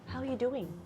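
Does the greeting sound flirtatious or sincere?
sincere. The greeting sounds warm and sincere. A genuine, friendly check on someone. "how you doing can sound really sincere"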